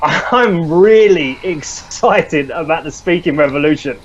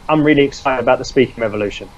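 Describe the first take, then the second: First: It is said with real excitement. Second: It is said flatly, without feeling.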